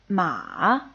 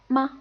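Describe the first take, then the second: First: The pitch dips low, then rises again. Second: The syllable is short, light and unstressed. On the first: "goes down and then rises back up" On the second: "pretty much the unstressed word"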